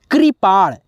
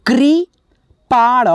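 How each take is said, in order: First: Said in the usual way. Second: Slow demo. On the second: Shown as a demonstration. Teacher reading the word for students, slow and drawn out. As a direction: sound out कृपाण syllable by syllable. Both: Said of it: "यहाँ पे देखिए लिखा है".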